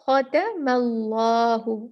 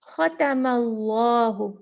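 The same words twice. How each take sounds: First: The t sound is followed by an a vowel. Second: The t sound is followed by an a vowel.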